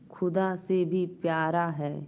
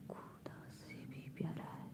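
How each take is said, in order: First: Said in the usual way. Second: Soft whispered echo of the line; whispered repeat of a poem line. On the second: Shown as a demonstration.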